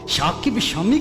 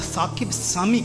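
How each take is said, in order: First: The names begin with an 'sh' sound. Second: The names begin with an 's' sound. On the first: "शाकिब शामी कहेंगे" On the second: "जहां पर से और शीन को इकट्ठे नहीं वो तलफ़ुज़ कर पाते"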